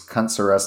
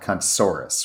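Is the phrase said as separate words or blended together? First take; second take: separate; blended. First: It is said as three separate words. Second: It is blended into one dinosaur-like word. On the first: It is a play on a store name. The speaker calls it right. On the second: It sounds like a dinosaur name. The speaker calls it wrong. "not cuntsaurus"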